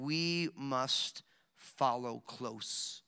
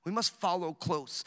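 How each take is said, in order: First: Very slow, lower and softer, every word weighed; slow soft emphasis. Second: Said in the usual way. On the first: Shown as a demonstration. Preacher pressing the point on the congregation, slow and soft. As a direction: let it sink in, quiet and deliberate.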